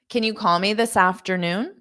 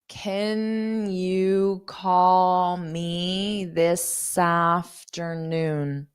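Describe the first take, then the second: First: The sentence is spoken at a fast pace. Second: The sentence is spoken at a slow pace. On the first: "so let's repeat this one fast" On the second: "I'll say it slow"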